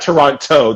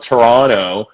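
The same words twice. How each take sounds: First: The second T is pronounced hard and clear. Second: The second T is pronounced soft, nearly dropped. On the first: The speaker calls it wrong. "not Toronto" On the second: The speaker calls it right. "the T is soft"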